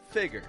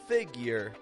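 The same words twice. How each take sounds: First: No y sound comes before the second syllable. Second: A y sound comes before the second syllable. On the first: "than figure" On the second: "get that y sound in there, making it more figure"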